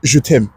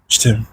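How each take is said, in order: First: It is said in a light, casual way. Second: It is said in a tender, romantic way. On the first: It expresses affection between friends. "entre amis, ils vont se dire" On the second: It expresses romantic love between partners. "gens couple qui vont se dire"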